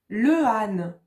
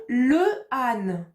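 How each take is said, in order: First: Two separate vowels are said, le then âne. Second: Two separate vowels are said, le then âne.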